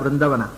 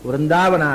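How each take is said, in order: First: The second vowel is short. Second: The second vowel is long. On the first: This is the ancient reading. The speaker calls it right. "ಪ್ರಾಚೀನ ಪಾಠ" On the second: This is the later, common reading. The speaker calls it wrong. "ವೃಂದಾವನ ಅಲ್ಲ"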